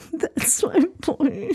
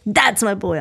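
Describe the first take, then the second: First: High, slow, teary proud voice; crying, worn out. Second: Said in the usual way. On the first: Shown as a demonstration. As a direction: stretch it like you're about to cry. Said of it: "may sound like you're crying". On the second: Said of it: "my tone is a little different".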